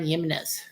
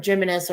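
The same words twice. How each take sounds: First: Jimenez said with a soft Y at the start; Y-sound pronunciation. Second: Jimenez said with an English J or SH at the start; J-sound pronunciation. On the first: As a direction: open Jimenez like "Yimenez". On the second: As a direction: open Jimenez like "Jim". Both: Shown as a demonstration. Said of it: "or however you wanna pronounce it".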